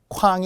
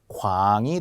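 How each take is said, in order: First: It begins with a strongly aspirated k sound. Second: It begins with a plain, unaspirated k sound. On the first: The speaker calls it wrong. "K로 썼다면 어떻게 읽어요? 쾅 ... 쾅이 아니고요" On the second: The speaker calls it right. "광이 되어야 합니다"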